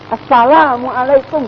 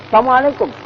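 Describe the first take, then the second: First: The 'lam' is pronounced clearly and distinctly. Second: The 'lam' is swallowed, sounding like 'sam'. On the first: It is a proper wish of peace. The speaker calls it right. "Jangan sam. Assalamualaikum gitu loh" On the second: It sounds like wishing harm on someone. The speaker calls it wrong. "Kok sam sih?"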